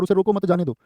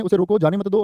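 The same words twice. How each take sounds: First: "उसे रोको मत" as one phrase, then "जाने दो" falling; group "मत" with "रोको", then let "जाने दो" fall; break after "मत". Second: "उसे रोको" as one phrase, then "जाने मत दो" together; group "मत" with "जाने" and "दो", after a break. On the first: Teacher contrasting two readings for students, breaking after "मत". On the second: Teacher contrasting two readings for students, breaking after "रोको". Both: Shown as a demonstration. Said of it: "अर्थ बदल गया".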